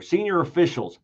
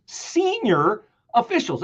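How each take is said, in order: First: Said in the usual way. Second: "senior officials" slowed and pitched higher, each word leaned on; emphasized words. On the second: Shown as a demonstration. Host stressing "senior officials" for viewers, slow and higher. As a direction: linger on "senior officials" to make it land. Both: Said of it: "every word you could pause over".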